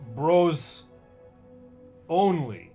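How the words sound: Long pauses separate the words. The speaker calls it right. "There's four spaces after each one. You gotta say them"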